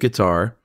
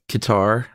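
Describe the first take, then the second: First: The word begins with a 'g' sound. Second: The word begins with a 'k' sound. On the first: "instead of guitar" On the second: "She says guitar"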